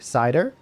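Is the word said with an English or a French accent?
English. The word is said with an English accent.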